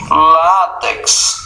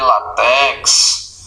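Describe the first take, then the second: First: The stress is on the second-to-last syllable. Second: The stress is on a different syllable. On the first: The speaker calls it right. "sempre paroxítonas" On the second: The speaker calls it wrong. "não é latex"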